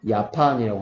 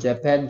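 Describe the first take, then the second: First: The word begins with a 'y' sound. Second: The word begins with a 'j' sound. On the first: Some countries say J like Y. "J를 Y처럼 발음하는 나라도 있어요" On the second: This is the official name. "정식 명칭은"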